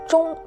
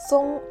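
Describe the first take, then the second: First: It starts with a 'zh' sound. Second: It starts with a plain 'z' sound. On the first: The speaker calls it right. "Think of the first part of George" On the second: The speaker calls it wrong. "not Zong"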